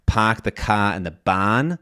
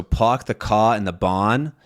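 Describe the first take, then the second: First: Boston "park the ka and the bon", fronted R-less ah; Boston accent. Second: "park the ka and the bon" with rounded R-less vowels; New York "park the ka and the bon", no R; New York non-rhotic. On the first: Teacher comparing regional accents, Boston accent. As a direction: say it Boston style, unchanging R-less vowels. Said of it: "talk about the Boston accent". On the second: Teacher modelling New York speech, R-less rounded vowels. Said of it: "you might hear". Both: Shown as a demonstration.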